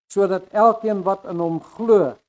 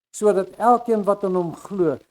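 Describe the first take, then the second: Both takes have the same delivery.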